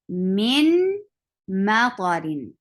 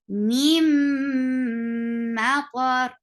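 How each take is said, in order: First: The n is pronounced clearly before the m. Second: The n merges into a nasal m sound. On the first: "if we say it separately" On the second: "we will merge this noon sakin into meme"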